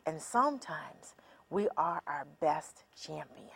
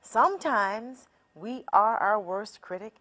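First: "and sometimes we are our best champion" in a soft whisper. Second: Said in the usual way. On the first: Shown as a demonstration. Speaker whispering the champion side to listeners. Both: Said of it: "contrast critic vs champion".

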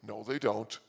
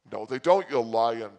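First: Said in the usual way. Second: Louder, punching it back at him; a mock indignant shout at the casino man; loud retort. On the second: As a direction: call him a liar loudly. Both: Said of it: "I'm like".

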